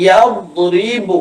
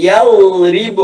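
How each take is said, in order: The two takes are said the same way.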